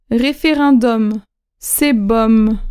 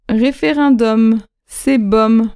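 First: Slow référendum, with the M held at the end; référendum drawn out, M sounded; slow and clear. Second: Slow Référendum, with the M held at the end; Référendum drawn out again, final M sounded; slow and clear. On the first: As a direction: teach it slowly, ending on the M sound. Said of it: "final M shown". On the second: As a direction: teach it slowly again, ending on the M. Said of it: "repeat of model". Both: Shown as a demonstration.

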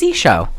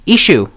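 First: "Isho" ending in an oh sound; Isho with final O. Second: "Ishu" ending in an oo sound; Ishu with final U. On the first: Host guessing the demon's name, "Isho" with final oh. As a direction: say "Isho" with a long O at the end. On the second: Host correcting the demon's name, "Ishu" with final oo. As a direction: say "Ishu" with an oo at the end. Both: Shown as a demonstration. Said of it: "is it Isho or Ishu".

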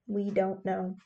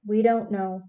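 First: Softer, trailing-off repeat; fading repeat. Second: Said in the usual way. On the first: A narrator's reading. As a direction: let it fade away hopelessly. Men answer the worried women.

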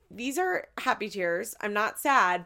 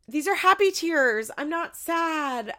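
First: Said in the usual way. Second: Much higher, louder, half-crying mimicry; mock tearful quote. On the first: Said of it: "you say". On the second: Mimicking the mom crying to her son, higher and louder. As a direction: ham up a teary mom insisting. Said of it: "She goes".

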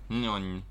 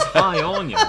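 First: Muffled quiet hello. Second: High, louder strained hi; odd fake hello. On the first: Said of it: "in the quietest, most muffled voice ever". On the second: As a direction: blurt out a strange hello. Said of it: "sounds like nothing that a human would ever say". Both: Shown as a demonstration.

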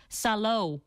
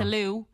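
First: Salo said slowly as Sah-lo; slow it down to Salo, stress on the first syllable; Salo, pronounced carefully; correct pronunciation. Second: Salou said as Sa-loo with the stress at the end; Irish pronunciation. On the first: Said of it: "it's pronounced Salo". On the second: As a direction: Salou the Irish way, long final oo. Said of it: "we all say Salou here in Ireland". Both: Shown as a demonstration.

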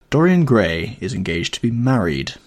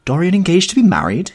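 First: Said in the usual way. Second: Much higher and louder, astonished; Basil crying out in shock at the news. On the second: Acted. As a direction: cry it out in disbelief. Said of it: "he cried".

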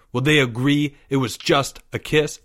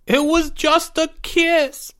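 First: Firm, controlled quoting back of a lame excuse; snapped retort. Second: High, loud, slow mock-sobbing wail. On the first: Stern boy challenging Porge's excuse, snapping. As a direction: throw the boy's excuse back at him. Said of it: "Leo snapped". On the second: Disgraced boy defending himself to classmates, sobbing. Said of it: "Porge sobbed". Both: A narrator's reading.

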